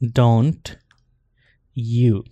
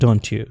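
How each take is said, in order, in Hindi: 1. t आवाज़ वैसी ही सादी t रहती है। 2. t आवाज़ ch आवाज़ में बदल जाती है।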